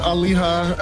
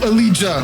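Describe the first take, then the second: First: The middle consonant is a breathy H sound. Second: The middle consonant is a J sound. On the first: The speaker calls it wrong. "am I reading a Spanish H sound for J?" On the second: The speaker calls it right. "like jam"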